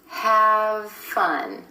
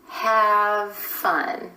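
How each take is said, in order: Both takes have the same delivery.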